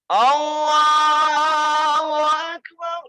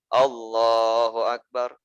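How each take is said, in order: First: The phrase is shouted loudly. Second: The phrase is said at normal, softer volume. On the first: A caller repeats it loudly for the congregation. "ada suara yang kencang sendiri" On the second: The prayer leader says it. "Misalkan gini imam"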